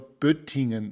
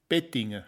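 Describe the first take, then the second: First: Standard German, with a rounded first vowel. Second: Swabian accent, with an unrounded first vowel. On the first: "auf Hochdeutsch" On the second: "auf Schwäbisch"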